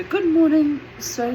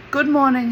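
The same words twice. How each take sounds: First: High, loud, bright little hello; mum's polite greeting. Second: Loud, firmer, falling good morning; rabbi's greeting. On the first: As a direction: sing out a polite good morning to a stranger. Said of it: "she says to the gentleman". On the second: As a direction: answer with a brisk falling greeting. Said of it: "he says". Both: Retold or imitated.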